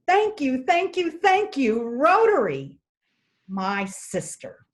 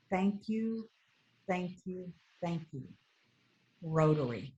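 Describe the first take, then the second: First: Put-on high, louder, delighted child's thanks; excited child. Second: Gentle, softer grateful thanks in broken English. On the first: Grinning little boy thanking President Jim, high excited voice. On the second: Retold or imitated. Grateful mother thanking Rotary, soft broken English. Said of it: "in her broken English".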